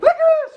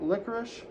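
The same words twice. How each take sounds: First: The word is said loudly with excited energy. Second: The word is said quietly with calm energy. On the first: The dog will stop and come over. The speaker calls it wrong. "the inflection matters" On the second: The dog is simply told the name of the toy. The speaker calls it right. "I try to avoid the excited talk"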